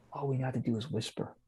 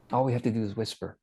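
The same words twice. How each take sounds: First: Softly, just above a whisper; hushed. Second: Said in the usual way. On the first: Shown as a demonstration. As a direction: drop the volume to make the point.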